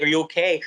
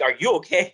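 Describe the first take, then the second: First: Said in the usual way. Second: "Are YOU okay?" with YOU emphasized; emphasis lands on "you", not "okay"; stress on YOU. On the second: Retold or imitated. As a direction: turn the question back by leaning on "you". Retold reply turns question back.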